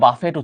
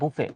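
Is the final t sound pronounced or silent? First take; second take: pronounced; silent. First: The word ends with a pronounced t sound. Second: The word ends in a vowel, t silent. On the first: The speaker calls it wrong. "যেটাকে অনেকে আবার বাফেট উচ্চারণ করে।" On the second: The speaker calls it right. "এটার উচ্চারণ কিন্তু আসলে বুফে।"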